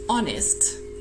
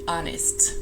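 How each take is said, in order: First: It is said with a British first vowel. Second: It is said with a more open American vowel. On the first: "in British English, it would be" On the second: "in American English, the vowel sound is more open"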